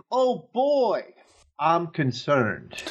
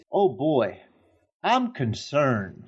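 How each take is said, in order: First: Put-on hitting the word boy too hard; stress on boy. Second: Put-on slow drawn-out concern, no stress on boy; plain worried oh boy; favorite take. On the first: Quoting the actress's bad take, BOY stressed. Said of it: "she internally emphasized the wrong word". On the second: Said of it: "my favorite line of hers is".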